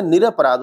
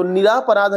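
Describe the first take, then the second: First: निरपराध with a short a: नि-र-प-राध; correct spelling read out. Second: निरापराध said with a long aa after नि: नि-रा-प-राध; wrong spelling read out. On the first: Teacher giving students the correct form, said carefully. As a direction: say निरपराध as ni-ra-pa-raadh, keeping the ra short. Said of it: "होता है". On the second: Teacher reading the wrong spelling to students, then the wrong form said aloud. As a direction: say निरापराध as ni-raa-pa-raadh, stretching the raa. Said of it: "नहीं होता है". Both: Shown as a demonstration.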